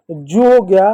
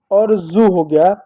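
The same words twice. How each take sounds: First: जू said with a hard j, as in jeep; j sound. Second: जू said slowly with a buzzing z, as in zoo; z sound, slower. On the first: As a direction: start जू with a clear j like in jeep. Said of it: "अंग्रेजी का मैं एक शब्द ले लूँ". (जू को ज से, जैसे जीप में) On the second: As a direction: drag out जू starting with a z buzz. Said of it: "इन सभी शब्दों में एक कॉमन होता है". (जू को ज़ से, धीरे-धीरे, जैसे ज़ू में) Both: Shown as a demonstration.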